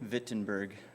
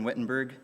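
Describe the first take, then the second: First: The name is said the local German way. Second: The name is said the usual English way.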